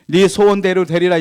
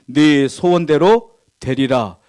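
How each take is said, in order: First: Said in the usual way. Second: Slow solemn blessing. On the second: Acted. Preacher quotes Jesus' blessing.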